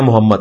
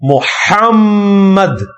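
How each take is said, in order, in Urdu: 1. h کی آواز کمزور ہے اور m ایک ہی ہے۔ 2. h کی آواز مضبوط ہے اور m دوہرا ہے۔ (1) "لیکن ہم اسے غلط پڑھتے ہیں" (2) "ہا بھی نکالنا ہے اور میم پہ تشدید بھی کرنی ہے"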